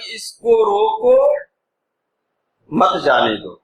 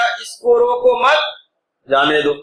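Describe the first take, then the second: First: There is a pause right after 'roko'. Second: There is a pause right after 'mat'.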